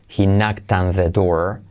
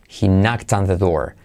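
The two takes are said the same way.

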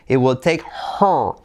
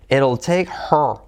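First: Both words of 'it will' are said in full. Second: 'It will' is contracted into one short syllable.

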